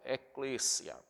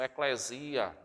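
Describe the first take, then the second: First: It is said closer to the Greek way. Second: It is said the Portuguese way. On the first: "mas eu gosto mais de trazer essa dessa forma" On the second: "uma pronúncia portuguesada, as pessoas pronunciam eclesia"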